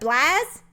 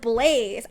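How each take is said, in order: First: It sounds like the name Blaz. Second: It sounds like the word blaze, as in fire. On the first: "like the player Blaz" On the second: "as in like the fire blaze"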